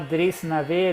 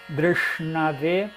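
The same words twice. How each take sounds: First: The r is followed by a clear i vowel. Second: The r is said without a clear i vowel. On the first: The speaker calls it wrong. "Muitas vezes as pessoas traduzem como I, né? ... se fosse falar Drishnave" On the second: The speaker calls it right. "mas o certo é Drishna, Dr, Dr. Ponta da língua"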